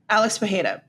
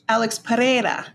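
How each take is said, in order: First: The name is read with Brazilian Portuguese sounds. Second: The name is read with Spanish sounds. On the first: "the Brazilian way to pronounce that is Pajeda"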